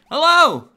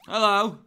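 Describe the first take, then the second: First: The greeting is said with lively, enthusiastic energy. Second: The greeting is said flatly, without much energy. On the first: The speaker calls it right. "I've got to sound enthusiastic" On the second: The speaker calls it wrong. "Is that a good intro?"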